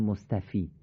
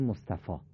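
First: The word ends with an 'ee' vowel. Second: The word ends with an 'ah' vowel. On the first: The speaker calls it wrong. "ما نمیگیم مصطفی" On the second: The speaker calls it right. "میگیم مصطفا، آ میخونی، ای رو نمیخونی"

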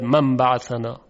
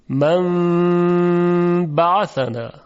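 First: The nasal m sound is short and passed quickly. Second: The nasal m sound is held for two counts. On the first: The speaker calls it wrong. "یعنی نمیگوید" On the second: The speaker calls it right. "قنه این حرف رو به اندازه دو حرکت نگه میداره"

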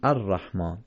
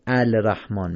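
First: The l is silent and the r is doubled. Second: The l sound is pronounced before the r. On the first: The speaker calls it right. "میگیم الرحمن، یعنی لام قبل از تشدید رو نمیخونیم" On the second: The speaker calls it wrong. "نمیگیم الرحمن"

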